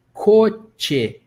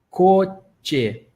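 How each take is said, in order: Both takes have the same delivery.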